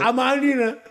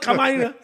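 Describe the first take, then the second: First: The word begins with a vowel sound. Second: The word begins with a k sound. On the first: The speaker calls it right. "Amarina, not Kamarina" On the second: The speaker calls it wrong. "not Kamarina"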